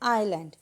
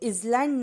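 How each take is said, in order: First: The word is said with no z sound. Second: The word is said with a z sound. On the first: The speaker calls it right. "हम इसको बोलते हैं आइलैंड" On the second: The speaker calls it wrong. "इसको इजलैंड नहीं बोलते हैं"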